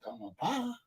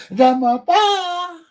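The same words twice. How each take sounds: First: Very soft, slightly raised pitch; small, hushed acted answer; quiet reply. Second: High, slow, stretched exclamation; loud mock wail on a high note; loud drawn-out cry. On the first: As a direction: say it meekly under your breath. Answer to mother, two contrasting takes. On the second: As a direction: belt it out, stretching PA. Repeats the answer, drawn out loud.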